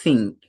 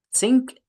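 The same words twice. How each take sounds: First: ثينك with tongue between teeth; th sound. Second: سينك with s, rising high; rising sink. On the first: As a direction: show ثينك with a clear th. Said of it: "بص كده معايا". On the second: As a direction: lift سينك up sharply with plain s. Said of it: "سينك يعني حوض". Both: Shown as a demonstration.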